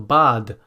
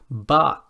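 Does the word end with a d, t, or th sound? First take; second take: d; t. First: The word ends with a d sound. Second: The word ends with a t sound.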